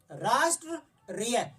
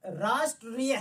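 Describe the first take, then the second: First: राष्ट्रीय drawn out very slowly, syllable by syllable; teacher slowly sounds out राष्ट्रीय; slow careful pronunciation. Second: Said in the usual way. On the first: Shown as a demonstration. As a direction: spell out राष्ट्रीय slowly for the class. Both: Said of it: "आप इसका उच्चारण कीजिए".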